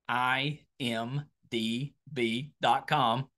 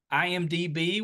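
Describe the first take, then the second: First: Letter by letter, slowly, with small gaps; slow, careful spelling. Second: Said in the usual way. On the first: Real, not acted. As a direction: take your time spelling out I M D B dot com. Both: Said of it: "Wanna make sure to take my time with that".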